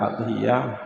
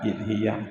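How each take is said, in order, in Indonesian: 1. Kata ini diawali vokal a. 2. Kata ini diawali vokal i. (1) "tidak dibaca adhiyah" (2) "tidak dibaca idhiyah"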